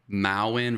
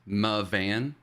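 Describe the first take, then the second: First: The middle consonant sounds like a w. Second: The middle consonant sounds like a v.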